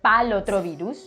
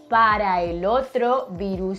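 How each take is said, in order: First: The first two words merge into one syllable. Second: The first two words are said separately. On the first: This is how it is said in daily life. The speaker calls it wrong. "is not grammatically correct, but it's how we say" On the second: This is the grammatically correct form. The speaker calls it right. "The correct way to say this would be"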